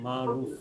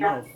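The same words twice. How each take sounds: First: "মারুফ" with both vowels fully sounded; unshortened "মারুফ", long clear "a" and "u"; full vowels. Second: "মারুফ" clipped to one syllable, like "marp"; "মারুফ" said very short, second vowel dropped; short British vowels. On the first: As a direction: say "মারুফ" as two whole syllables, ma-ruf. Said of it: "এভাবে না বলে". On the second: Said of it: "এরকম, মানে খুব short". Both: Shown as a demonstration.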